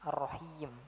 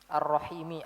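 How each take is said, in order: First: The word ends on the consonant m. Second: The word ends with a short i vowel. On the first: This is the form when stopping at the word. "Kalau kita wakaf seperti apa?" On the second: This is the form when reading on without stopping.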